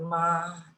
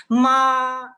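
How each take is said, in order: First: "ma" held down in the low register; low, level "ma"; wrong low tone. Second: "ma" high, loud, long and level; sustained high flat tone on "ma"; first tone. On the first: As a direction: sink "ma" into the low notes. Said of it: "en los graves, es imposible pronunciarlo". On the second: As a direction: hold "ma" steady at the top of the voice. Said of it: "este es el primer tono". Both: Shown as a demonstration.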